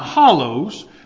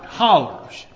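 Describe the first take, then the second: First: The word ends with an 'oh' sound. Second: The word ends with an 'er' sound. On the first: This is how outsiders would say it. The speaker calls it wrong. "Not hollows, which you'd probably say" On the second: This is the local regional way of saying it. The speaker calls it right. "I pronounce that right"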